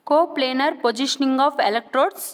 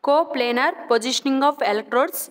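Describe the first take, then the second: No difference in how they are said.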